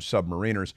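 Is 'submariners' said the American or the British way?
American. It is said with the American pronunciation. "but we call them submariners"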